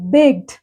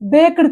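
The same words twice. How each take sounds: First: The ending is a plain t with one syllable. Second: The ending is sounded as an extra syllable. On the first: The speaker calls it right. "ఈని ఇక్కడ మనం pronounce చేయకూడదనమాట" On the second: The speaker calls it wrong. "కాదు"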